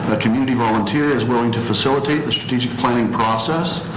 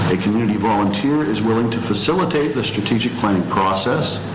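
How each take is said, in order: The two takes are said the same way.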